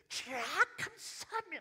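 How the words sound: It sounds desperate and pleading.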